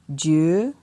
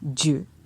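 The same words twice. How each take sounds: First: The syllable has a rising tone. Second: The syllable has a low tone. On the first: "ton montant" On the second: "Avec un ton bas"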